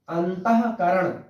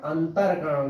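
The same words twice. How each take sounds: First: अंतःकरण said slowly with a clear breathy h after अंत; correct pronunciation. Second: अंतरकरण with a plain r in place of the h; wrong pronunciation. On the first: Teacher says अंतःकरण slowly, visarga h sounded clearly. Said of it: "अंतःकरण सही". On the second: Teacher shows the wrong form अंतरकरण, r in place of h. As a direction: say अंतरकरण with r, the common mistake. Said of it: "अंतरकरण गलत है". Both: Shown as a demonstration.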